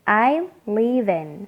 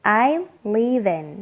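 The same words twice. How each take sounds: First: Live and in are joined together smoothly. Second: The same.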